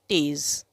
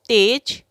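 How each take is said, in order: First: The word ends with a z sound. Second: The word ends with a j sound.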